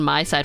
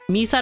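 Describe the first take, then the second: First: The first syllable sounds like 'my'. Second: The first syllable sounds like 'me'. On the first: The speaker calls it wrong. "rather than my side" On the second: The speaker calls it right. "Me side rather than my side for me"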